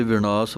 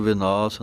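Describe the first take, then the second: First: ਵਿਨਾਸ਼ with a retroflex ṇ in the middle; careful vi-ṇaas for ਵਿਨਾਸ਼. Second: ਵਿਨਾਸ਼ with an ordinary dental n; tongue on the teeth for the n of ਵਿਨਾਸ਼; misreading vi-naas for ਵਿਨਾਸ਼; mistaken dental n. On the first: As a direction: curl the tongue back for the n of ਵਿਨਾਸ਼. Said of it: "ਪਾਠ ਹੈ ਅਣਾਣੇ ਦੇ ਨਾਲ". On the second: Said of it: "ਨੰਨਾ ਲਾ ਕੇ ਨਹੀਂ ਬੋਲਣਾ". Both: Shown as a demonstration.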